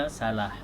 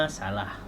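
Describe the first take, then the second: Both takes have the same delivery.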